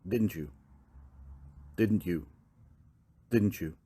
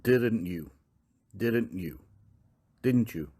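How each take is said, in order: No difference in how they are said.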